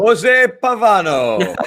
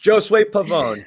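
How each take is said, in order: First: The first name is said as Jose. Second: The first name is said as Josue. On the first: The speaker calls it wrong. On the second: The speaker calls it right.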